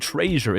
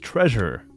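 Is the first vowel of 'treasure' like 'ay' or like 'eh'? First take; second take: ay; eh. First: The first vowel sounds like 'ay'. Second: The first vowel sounds like 'eh'. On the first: The speaker calls it wrong. "you can't say treasure" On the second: The speaker calls it right. "It's treasure"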